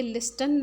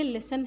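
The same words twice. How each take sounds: First: लिस्टन with the T sounded; mispronounced लिस्टन, an audible T after the S; T pronounced. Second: लिसन with no T sound; लिसन, the T left silent. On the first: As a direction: say लिस्टन, voicing the silent T by mistake. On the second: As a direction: say लिसन, going straight from S to the final syllable. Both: Shown as a demonstration. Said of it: "क्योंकि इसमें टी silent है".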